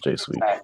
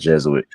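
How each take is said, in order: First: It is said as two syllables, 'jay-sweet'. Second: It is said as three syllables, 'jez-oo-it'. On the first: The speaker calls it right. "he pronounced it correctly though, because it is J Sweet" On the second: The speaker calls it wrong. "It's not Jesuit"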